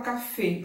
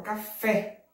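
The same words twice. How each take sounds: First: Café with a closed ê, as cafê; wrong closed vowel. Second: Café with an open final é; correct open vowel. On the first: Teacher showing the wrong way, café as cafê. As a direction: mispronounce café ending in a closed ê. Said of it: "Eu não falo café". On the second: Teacher correcting to open é in café. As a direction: land café on a wide-open é. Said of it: "eu falo café". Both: Shown as a demonstration.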